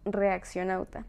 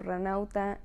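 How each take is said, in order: First: The name is said in full, re-ac-cio-nau-ta. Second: The name is shortened to three syllables, ra-nau-ta. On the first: The speaker calls it right. "es reaccionauta" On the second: The speaker calls it wrong. "o ranauta"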